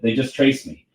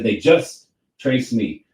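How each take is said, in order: First: The word 'just' is said plainly, without emphasis. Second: The word 'just' is said with strong emphasis. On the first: A neutral statement of the line. "he could have just said" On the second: The emphasis sets up a rhyme with the next phrase. "pronounce that just so strongly"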